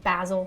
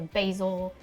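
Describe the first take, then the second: First: It is said with a British pronunciation. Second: It is said with an American pronunciation.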